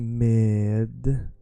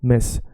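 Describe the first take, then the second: First: It is said slowly with the D sound. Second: It is said fast, linking straight into S. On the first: "with the D, you want to say it slowly" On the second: "say it fast without the D"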